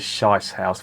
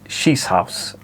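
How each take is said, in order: First: The first vowel sounds like 'eye'. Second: The first vowel sounds like 'ee'. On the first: It sounds like a crude word for toilet. The speaker calls it wrong. "I read that as Shice House" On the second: It means a shooting lodge. The speaker calls it right. "it's pronounced Shees, Shees House, I would imagine"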